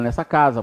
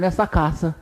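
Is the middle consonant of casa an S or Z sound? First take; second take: Z; S. First: The middle consonant is a buzzing Z sound. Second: The middle consonant is a hissing S sound. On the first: The speaker calls it right. "porque está entre duas vogais" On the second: The speaker calls it wrong. "Ninguém fala"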